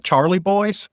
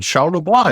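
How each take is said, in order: First: Put-on "Charlie Boys" for the French name, with hard ch; local anglicized pronunciation. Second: "Charlevoix" said as shar-luh-BWAH; read as French. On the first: Vermont locals correcting a newcomer, saying "Charlie Boys". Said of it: "That's what they call it". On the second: Retold or imitated. Newcomer naming a truck company, "Charlevoix" said French-style. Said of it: "we would call it as we read it".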